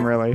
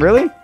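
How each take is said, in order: First: The pitch falls at the end, like a statement. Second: The pitch rises at the end, like a question. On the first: It is a plain statement. The speaker calls it right. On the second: It sounds like a question. The speaker calls it wrong.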